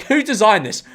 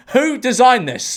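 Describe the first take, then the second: First: Incredulous question, slightly raised pitch. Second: Slow, high "Who designed this?", each word leaned on; emphatic disbelief. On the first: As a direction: ask it in baffled disbelief. First take of repeated rhetorical question. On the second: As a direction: repeat it slower and higher, appalled. Repeats question slower for emphasis. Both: Real, not acted.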